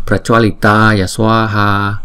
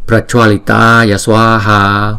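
No difference in how they are said.

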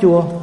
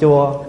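First: The syllable is said on a level tone. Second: The syllable is said on a low falling tone. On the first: It means sour. "đứa nào nó không nhận cái nào nó rất chua" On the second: It means a temple. "Con nhận dấu huyền là con thành chùa"

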